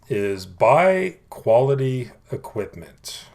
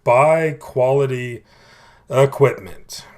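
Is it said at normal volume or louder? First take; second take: normal; louder. First: It is said at normal volume. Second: It is said more loudly.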